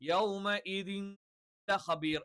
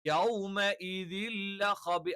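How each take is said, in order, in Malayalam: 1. n ശബ്ദം l-ന് മുമ്പ് വേറെയായി ഉച്ചരിക്കുന്നു. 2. n ശബ്ദം l-ൽ പൂർണ്ണമായി ലയിക്കുന്നു. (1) "എന്ന് പറയില്ല" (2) "ഈ തെൻവീനിനെ നമ്മൾ ലാമിലേക്ക് അങ്ങ് ചേർത്തും"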